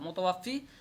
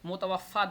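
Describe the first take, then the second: First: The word ends in an 'ee' vowel. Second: The word ends in an 'a' vowel.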